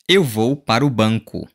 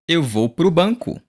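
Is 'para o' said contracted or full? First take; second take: full; contracted. First: Para and o are said as separate words. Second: Para and o merge into one word, pro.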